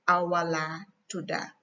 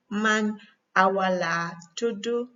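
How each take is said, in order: First: Gambian-accented Wolof answer, "tuda" with final a. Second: Senegalese-accented Wolof answer, "tudu" with final u. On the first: Teacher modelling the other person's reply, Gambian accent. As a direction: end "tuda" on "ah", Gambian style. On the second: Teacher modelling the other person's reply, Senegalese accent. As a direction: end "tudu" on "oo", Senegalese style. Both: Shown as a demonstration. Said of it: "tudu and tuda is just accent".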